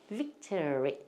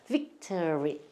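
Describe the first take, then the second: No difference in how they are said.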